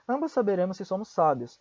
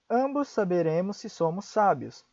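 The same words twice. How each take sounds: First: It is spoken at a fast pace. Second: It is spoken at a slow pace. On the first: "Mais rápido" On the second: "Eu vou pronunciar uma vez devagar"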